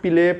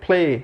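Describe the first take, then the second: First: An extra vowel separates the p and l sounds. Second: The p and l sounds are joined together. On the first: The speaker calls it wrong. "उसको पिले पढ़ रहे हैं" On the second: The speaker calls it right. "सही pronunciation क्या है"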